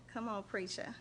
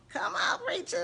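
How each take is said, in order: First: Said in the usual way. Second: Much higher and louder, cheering him on; excited cheer. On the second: Real, not acted. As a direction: shout it up high like hyping a friend at church. Cheering on her preacher friend.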